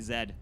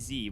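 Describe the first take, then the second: First: The letter is said the Canadian way. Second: The letter is said the American way. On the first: The speaker calls it right. "In Canada, we say Z" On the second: The speaker calls it wrong. "We do not say Z"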